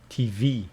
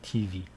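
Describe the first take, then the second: First: The stress is on the second syllable. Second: The stress is on the first syllable. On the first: The speaker calls it right. "the stress is on the second syllable" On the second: The speaker calls it wrong. "Don't say T V"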